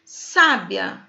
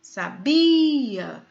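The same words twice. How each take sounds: First: "Sábia" with a strong SÁ; stress on first syllable. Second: "Sabia" with BI drawn out; stress on middle syllable. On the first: Teacher showing the stressed syllable, "Sábia" stressed on SÁ. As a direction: say "Sábia" as SÁ-bia, falling away after SÁ. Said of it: "Paroxítona terminada em A". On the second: Teacher showing the verb form, "Sabia" with long stressed BI. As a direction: say "Sabia" as sa-BIII-a. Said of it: "já vem de um verbo". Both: Shown as a demonstration.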